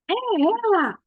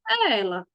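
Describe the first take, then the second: First: It is said as an exclamation, not asking. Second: It is said trailing off, left unfinished. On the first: The speaker has found the person. "Se eu for só exclamar" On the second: There is more left to interpret. "E se eu for usar com reticências"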